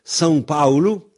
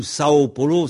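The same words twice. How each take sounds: First: "São Paulo" with nasal são and paulu; "São" nasalised, "Paulo" ending in u; Portuguese pronunciation. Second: "Sao Paulo" said the French way, plain oral sa-o; "Sao Paulo" read as written, no nasal; wrong pronunciation. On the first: Teacher to listeners, giving the real Portuguese name. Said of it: "c'est São Paulo". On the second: Teacher to listeners, showing the wrong French reading. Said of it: "c'est pas du tout". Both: Shown as a demonstration.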